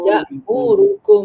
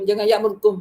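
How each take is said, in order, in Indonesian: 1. Vokal-vokalnya dibaca penuh dan rata. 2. Satu vokal dipotong pendek dan cepat. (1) "Kalau betul-betul"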